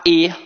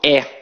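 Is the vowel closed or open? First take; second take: closed; open. First: The vowel is said closed. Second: The vowel is said open. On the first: This is how it is said in other states. "em vários outros estados, a pronúncia é mais fechada" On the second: This is how it is said in Rio de Janeiro. "Aqui no Rio de Janeiro, a nossa pronúncia é muito aberta"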